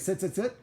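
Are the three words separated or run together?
run together. The words run together without pauses. The repeated words sound like one new word. The speaker calls it wrong. "that becomes its own word"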